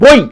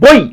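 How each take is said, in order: The two takes are said the same way.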